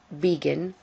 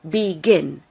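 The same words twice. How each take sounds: First: The stress is on the first syllable. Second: The stress is on the last syllable. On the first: The speaker calls it wrong. "not begin" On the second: The speaker calls it right. "the stress is on the last, last syllable. It's begin"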